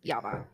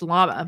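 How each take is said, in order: First: The word begins with a Y sound. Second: The word begins with an L sound. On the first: The speaker calls it right. "but it's Yama" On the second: The speaker calls it wrong. "It looks like it's llama"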